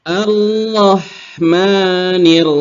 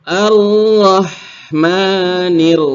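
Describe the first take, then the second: Both takes have the same delivery.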